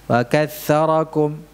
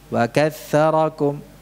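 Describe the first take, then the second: The two takes are said the same way.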